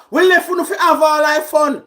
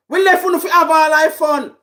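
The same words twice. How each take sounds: The two takes are said the same way.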